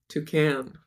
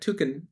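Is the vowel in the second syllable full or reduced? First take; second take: full; reduced. First: The second syllable's vowel is full. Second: The second syllable's vowel is reduced. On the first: This is how it is said in America. "and we say toucan" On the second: This is how it is said in the UK. "like they sort of drop the A"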